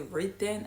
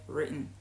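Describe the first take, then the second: First: Every letter is pronounced as it is spelled. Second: The word is said in a natural reduced way. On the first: The speaker calls it wrong. "I didn't say written" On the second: The speaker calls it right. "I said written"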